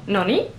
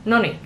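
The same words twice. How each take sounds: First: Noni rising onto a stressed -NI; stress on second syllable. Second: Noni in one short falling stroke, neither syllable lifted; no emphasis. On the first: Learner showing viewers the second variant, second-syllable stress. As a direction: lift the last syllable of noni. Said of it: "emphasis is on the second syllable". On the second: Learner showing viewers the "anyway" noni, no emphasis. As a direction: say noni evenly, letting it fall. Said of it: "no emphasis at all". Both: Shown as a demonstration.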